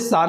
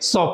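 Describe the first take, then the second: First: The vowel is a short open 'ah'. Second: The vowel is a rounded 'aw'. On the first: The speaker calls it wrong. "आप इसे सा नहीं पढ़ेंगे" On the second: The speaker calls it right. "सॉ पढ़ेंगे"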